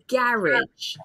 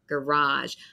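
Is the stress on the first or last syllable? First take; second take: first; last. First: The stress is on the first syllable. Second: The stress is on the last syllable. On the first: "a lot of British English speakers say garage" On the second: "it will have the French stress at the end"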